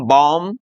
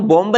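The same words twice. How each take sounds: First: बॉम्ब said as bom, the b silent; correct pronunciation. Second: बॉम्ब with the final b sounded, bomb-b; deliberately wrong बॉम्ब with an audible final b; wrong pronunciation. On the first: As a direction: say बॉम्ब ending on m, no b. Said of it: "सही pronunciation इनका क्या है". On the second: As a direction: say बॉम्ब pronouncing the b at the end. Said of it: "बॉम्ब नहीं बोलेंगे". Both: Shown as a demonstration.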